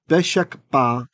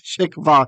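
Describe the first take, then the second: First: The consonant after the schwa is a hard b. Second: The consonant after the schwa is a soft v. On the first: This follows the habit of adding a dagesh. The speaker calls it wrong. "It's so ingrained in me after a silent schwa to put the dagesh in" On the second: This follows the written pointing. The speaker calls it right. "Pardon me, beshek va"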